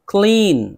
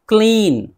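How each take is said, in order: Both takes have the same delivery.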